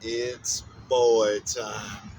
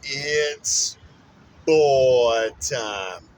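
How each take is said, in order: First: Put-on It's boy time, stretched out very slowly; slow, savoring drawl. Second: Put-on boy time, shouted out big and loud; proud loud announcer call; loud announcement. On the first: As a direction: drag out boy like a lazy drawl. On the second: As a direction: belt the word boy and let it fall.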